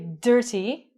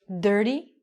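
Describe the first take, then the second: First: The middle consonant is a clear, hard t. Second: The middle consonant sounds like a soft d. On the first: The speaker calls it wrong. "we don't say dirty" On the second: The speaker calls it right. "these ones are going to sound like a D"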